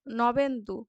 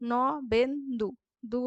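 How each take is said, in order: First: Said in the usual way. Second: Nabendu broken as ন, বেন, দু; split into syllables. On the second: Shown as a demonstration. Teacher isolating the last syllable, word split in three. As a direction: space out the three beats of Nabendu. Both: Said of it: "শেষ দলগুলির মধ্যে".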